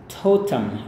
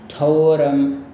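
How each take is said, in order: First: It is said with a British accent. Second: It is said with an American accent. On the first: "kalau gaya Inggris" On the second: "itu gaya Amerika ya"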